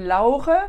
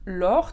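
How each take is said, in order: First: The name has German sounds. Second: The name has French sounds, in one syllable. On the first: "En allemand, ça ferait Laure" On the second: "très sympa en français"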